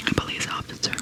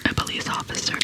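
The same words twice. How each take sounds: The two takes are said the same way.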